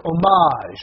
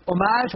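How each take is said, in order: First: Second "homage" drawn out loud on its last syllable; louder, stretched emphasis. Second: Said in the usual way. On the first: Shown as a demonstration. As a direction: exaggerate "homage", swelling into a long final syllable. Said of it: "put different emphasis on syllables to say which one's funnier". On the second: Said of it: "say things louder and louder, put different emphasis on syllables".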